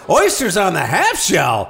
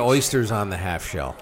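First: It is said as an amazed exclamation. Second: It is said flatly, as a plain statement.

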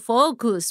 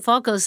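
First: The word is said very slowly and carefully. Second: The word is said quickly and run together. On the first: The speaker calls it right. "I need to say it super slow" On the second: The speaker calls it wrong. "if I don't say that, I just keep saying focus"

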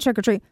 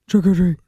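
First: It is said in a normal, lighter voice. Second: It is said in a low, deep voice. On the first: "it's not trick-or-treat" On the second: "It's like a deep voice"

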